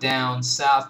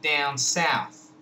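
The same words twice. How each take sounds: First: The vowels start with an open 'ah' sound. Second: The vowels start closer to the 'cat' vowel. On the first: "Not down south" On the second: "but down south"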